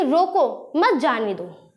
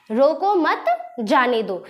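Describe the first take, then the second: First: "रोको" alone, then "मत जाने दो" together; pause after रोको. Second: "रोको मत" joined, a break, then "जाने दो"; pause after मत. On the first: Teacher shows the opposite meaning, pausing after "रोको". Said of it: "बीच में थोड़ा रुका". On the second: Teacher shows the let-him-go meaning, pausing after "मत". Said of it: "पे रुका इसने". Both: Shown as a demonstration.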